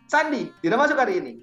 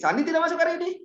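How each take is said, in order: First: It is said as a firm order. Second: It is said with shocked surprise. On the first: The speaker tells someone not to come. "Saya nyuruh Sandi untuk tidak masuk hari ini" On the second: The speaker is shocked it is true. "saya bukan nanya, teman-teman. Saya terkejut"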